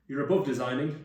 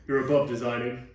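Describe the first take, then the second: First: It is read in the speaker's plain voice. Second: It is read in a put-on director's voice.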